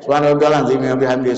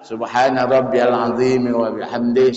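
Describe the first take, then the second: First: It is recited quickly, with words run together. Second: It is recited at a steady normal pace. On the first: "Kalau nak digas sedikit gas lah Pak. Masuk gigi tiga kan" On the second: "Ya standar tuh"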